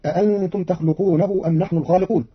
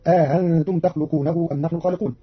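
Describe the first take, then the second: First: أأنتم with two full hamzas; common reading. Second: أأنتم with the second hamza eased, an alif inserted, a-aantum; Qalun reading. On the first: Teacher recites the usual reading before Qalun's, two hamzas. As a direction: read أأنتم with both hamzas clear. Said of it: "قرأ قالون كلمة أأنتم". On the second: Teacher shows Qalun's eased hamza with the inserted alif. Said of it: "بتسهيل الهمزة الثانية بين بين". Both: Shown as a demonstration.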